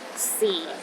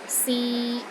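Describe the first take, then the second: First: The pitch is at its lowest. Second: The pitch is steady in the middle. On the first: It means time. "The fourth tone is the lowest tone" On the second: It means to try. "pronounced in the middle of your range and it is steady"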